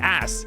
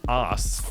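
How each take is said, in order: First: The word is said with an American accent. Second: The word is said with an Australian accent. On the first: "I get like an American pronunciation of it" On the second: "That that's how I would normally say it in Australian"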